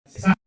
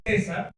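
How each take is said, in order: First: César said as ce-SAR, last syllable stressed; misplaced accent. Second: César stressed on the first syllable, CÉ-sar; correct name stress. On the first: Speaker reading out the misprinted shirt name, ce-SÁR, final-syllable stress. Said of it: "la había puesto en la A". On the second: Speaker giving the intended name on his shirt, CÉ-sar, first-syllable stress. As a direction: say César with the beat on CÉ. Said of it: "en lugar de decir". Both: Shown as a demonstration.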